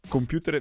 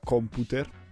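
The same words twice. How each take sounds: First: It is pronounced the English way. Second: It is pronounced with a mangled Italian accent.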